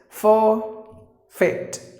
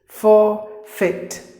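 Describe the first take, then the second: First: It is said in a British accent. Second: The same.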